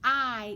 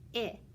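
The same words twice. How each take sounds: First: The vowel is long, sounding like "eye". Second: The vowel is short, sounding like "ih".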